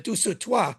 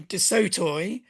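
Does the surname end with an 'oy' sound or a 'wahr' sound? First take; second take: wahr; oy. First: The surname ends with a 'wahr' sound. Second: The surname ends with an 'oy' sound. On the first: This is how it is said in France today. "when I go to Paris and give talks, it's" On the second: This is the family's own old French pronunciation. "but actually we say"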